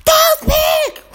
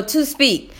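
First: High-pitched mock kid shout; mimicked schoolboy holler; imitating yelling student. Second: Said in the usual way. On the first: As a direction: yell the repeat like an overexcited pupil. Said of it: "walking around the room yelling". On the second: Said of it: "I'll just start saying".

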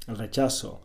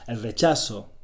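No difference in how they are said.

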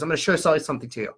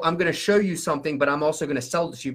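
First: Fast, "show sell" fused into one word; quick imitation of a subliminal sales pitch; imitated slip-in. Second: Said in the usual way. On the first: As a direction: rattle it off, sliding "show sell" past the listener. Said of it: "That's how he said it". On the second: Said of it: "like he was saying it to subconsciously go".

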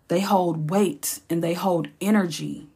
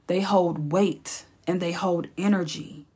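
The two takes are said the same way.

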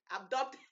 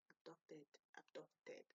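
First: "abducted" blurted out loud; loud, rising attempt at "abducted" before cracking up; loud retry. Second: Soft, tentative tries at "abducted"; practising under breath. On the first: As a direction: punch out "abducted" as a questioning retry. Louder retry before bursting into laughter. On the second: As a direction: test "abducted" quietly to yourself. Trying out a tricky word. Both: Real, not acted.

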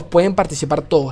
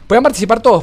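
First: Said in the usual way. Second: Higher, louder questioning read-out; reading chat question. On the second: Retold or imitated. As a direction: read the viewer's question with a lift. Reading a viewer's question aloud.

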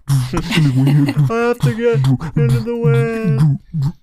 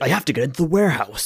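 First: Slow, loud hammed-up dub line; overacted anime dub. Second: Overacted anime dub. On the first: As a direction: drag it out like a cheesy anime dub. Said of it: "the voice acting". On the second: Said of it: "anime dub voice ever".

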